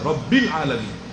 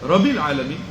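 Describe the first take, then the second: First: The b sound is held long and doubled. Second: The b sound is short and single. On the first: The speaker calls it right. "যেখানে সাদ্দা আছে" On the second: The speaker calls it wrong. "একটা অক্ষর কিন্তু মেরে দিয়েছেন"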